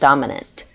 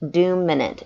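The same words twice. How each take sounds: First: The first syllable is said like dom. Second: The first syllable is said like doom.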